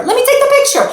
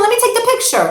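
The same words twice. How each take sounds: First: Even higher and louder, frantic insistence; fussing mom losing patience; frantic repeat. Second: High, pleading parent voice; a fussing mom, still holding back. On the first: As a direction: push the plea up a notch. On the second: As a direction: beg the kid to wait for the photo. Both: Retold or imitated. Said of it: "and you say to the kid".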